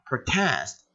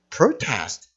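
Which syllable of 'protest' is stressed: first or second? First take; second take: second; first. First: The stress is on the second syllable. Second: The stress is on the first syllable. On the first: It is a verb meaning to protest. "동사는 뒤에 강세가 가서요. 그래서 protest, 항의하다" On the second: It is a noun meaning a protest. "명사는 보통 앞에 힘줘서 protest 하게 되면 항의"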